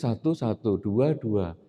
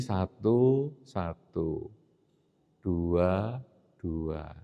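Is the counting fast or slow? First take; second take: fast; slow. First: The counting is said quickly. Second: The counting is said slowly. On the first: The mind is burdened and breathing is rapid. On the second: The mind is calm and breathing has slowed. "maka napasnya menjadi lambat"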